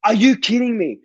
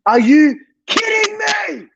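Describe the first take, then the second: First: Said in the usual way. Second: Higher, slow, pained disbelief; real cry of exasperation; anguished cry. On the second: Real, not acted. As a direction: wail it like a gutted fan. Repeated in disbelief.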